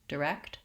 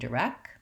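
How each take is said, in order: First: The K and T are both clearly released. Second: The final T is left out entirely. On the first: The speaker calls it right. "I typically release those sounds so that you can hear that there's a K and a T" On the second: The speaker calls it wrong. "without the T, and it will sound incorrect and accented"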